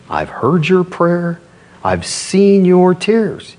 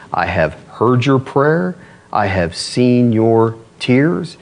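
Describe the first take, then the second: First: Slow, raised, ringing declaration; emphatic repeat. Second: Slow, measured declaration; solemn scripture quote. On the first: Preacher repeats God's answer to the congregation, emphatic and raised. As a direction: drive it home slowly on a higher pitch. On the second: Preacher reads God's answer to Hezekiah, solemn and slow. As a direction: deliver each word slowly, with weight. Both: Acted.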